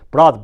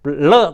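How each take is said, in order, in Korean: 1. 두 번째 자음은 R 같은 소리입니다. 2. 두 번째 자음은 분명한 L 소리입니다. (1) "이게 안 돼가지고 브라드"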